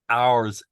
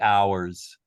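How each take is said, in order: First: It is said in a British accent, one syllable. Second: It is said in an American accent, drawn-out diphthong.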